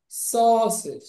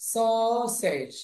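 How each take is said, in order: First: সসেজ as "sawsij", second syllable lighter; aw sound demo. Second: সসেজ slowly split, "saw-sayj"; aw sound demo. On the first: Teacher repeats the word joined up, সসেজ as "sawsij". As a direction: say সসেজ with long "aw", reduced ending. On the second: Teacher models au slowly, সসেজ as drawn-out "saw-sayj". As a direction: stretch the first vowel of সসেজ, full second syllable. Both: Shown as a demonstration. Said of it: "এ ইউটা অ উচ্চারণ হচ্ছে".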